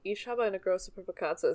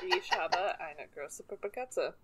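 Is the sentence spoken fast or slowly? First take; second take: fast; slowly. First: The sentence is spoken quickly. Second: The sentence is spoken slowly.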